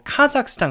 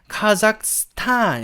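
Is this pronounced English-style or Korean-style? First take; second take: Korean-style; English-style. First: It is said with Korean-style syllables and sounds. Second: It is said English-style, stressing the final part. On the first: The speaker calls it wrong. "카자흐스탄이라고 하면 안 되고" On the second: The speaker calls it right. "카자흐스탄 이렇게 발음해야 돼요"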